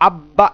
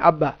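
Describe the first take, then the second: First: The word is said with strained, distorted lips. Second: The word is said plainly without lip distortion. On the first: The speaker calls it wrong. "আব্বা এরকম না হয়" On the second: The speaker calls it right. "আব্বা সিম্পল"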